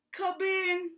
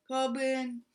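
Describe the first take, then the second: First: Hoarse sick bear rasp; raspy. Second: Stuffy-nosed come in; blocked nose. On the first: A narrator's reading. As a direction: rasp it like a sore throat. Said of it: "he rasped". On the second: Shown as a demonstration. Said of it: "'cause his nose was all full".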